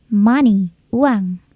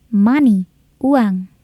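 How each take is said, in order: The two takes are said the same way.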